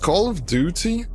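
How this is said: It is said with a British pronunciation. "specifically if it's from, if it's English from U K, British English"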